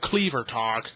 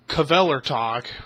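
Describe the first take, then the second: First: The name starts with a 'kl' sound. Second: The name starts with a 'kv' sound. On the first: The speaker calls it wrong. "instead of Cleavertalk. I got hounded for that" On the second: The speaker calls it right. "which I'm pronouncing it right"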